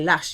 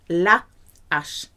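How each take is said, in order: First: The article is run together with the noun. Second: The article is kept apart from the noun. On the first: The speaker calls it wrong. "you cannot say lash" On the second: The speaker calls it right. "You have to separate the the"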